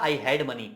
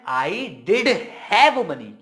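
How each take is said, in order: First: Said in the usual way. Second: Forceful insistence on "did have money"; louder emphasis. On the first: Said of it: "अगर मुझे ये बोलना था". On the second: Shown as a demonstration. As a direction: hit "did have" hard with a beat between. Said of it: "और ज्यादा जोर से".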